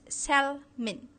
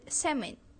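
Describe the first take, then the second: First: The word is pronounced in a Singaporean English way. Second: The word is pronounced in a standard English way.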